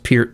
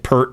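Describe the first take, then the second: First: The name does not sound like the shampoo. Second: The name sounds just like the shampoo. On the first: This is how the owner of the name says it. The speaker calls it right. "I guess it's pronounced Peart, by the way, and that's how he pronounces it" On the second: This is how many other people say it. The speaker calls it wrong. "a lot of people say Pert, but that's, that's a shampoo"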